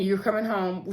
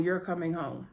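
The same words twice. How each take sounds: First: Said in the usual way. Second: Quiet and tender, much softer; gently promising a home; a soft, kind promise to the boys; softer reassurance. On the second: Acted. Vi reassures the kids.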